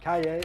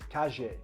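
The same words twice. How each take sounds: First: It is said in the familiar Mexican-style accent. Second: It is said in the Rioplatense Spanish accent. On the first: "You're used to"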